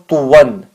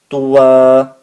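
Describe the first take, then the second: First: The word ends with an n sound. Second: The word ends with a long a vowel. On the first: The word is read without stopping on it. "Next one, tuwan" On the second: The reader stops at the end of the verse. "you have to add the alif and take one fatha off"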